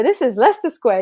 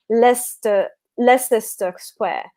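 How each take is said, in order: First: LEICESTER squeezed to "Lester"; local pronunciation of Leicester. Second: LEICESTER read with an extra "ses" syllable; American misreading of Leicester. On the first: Retold or imitated. Imitating the Tube announcement to a newcomer, local pronunciation. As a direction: announce it with LEICESTER as two syllables. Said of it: "they just like". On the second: Shown as a demonstration. Explaining how an American would read Leicester Square, spelling pronunciation. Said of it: "as an American, you will probably pronounce it".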